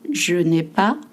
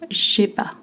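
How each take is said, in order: First: The full form is said with 'ne'. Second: The 'ne' is dropped in a reduced form. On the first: "je n'ai pas becomes j'ai pas" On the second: "In common spoken French"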